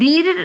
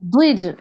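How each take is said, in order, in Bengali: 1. ব্যঞ্জনটি পাতলা, হালকা আওয়াজে বলা হয়। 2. ব্যঞ্জনটি মোটা, ভারী আওয়াজে বলা হয়। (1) "এই যে দীর যাতে না হয়" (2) "এরকম একটু মোটা মোটা আওয়াজ হবে"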